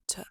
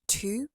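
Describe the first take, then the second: First: The word has a weak schwa vowel. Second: The word has a full, clear vowel. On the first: "they would say t" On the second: "instead of to"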